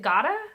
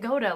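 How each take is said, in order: First: The first syllable sounds like 'God'. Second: The first syllable sounds like 'goat'. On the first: The creator is a god. "Like Oda is God?" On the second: The creator is the greatest of all time. "like Oda is the goat?"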